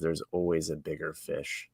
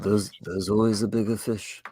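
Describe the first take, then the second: First: It is read in the speaker's normal voice. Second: It is said in an imitated character voice.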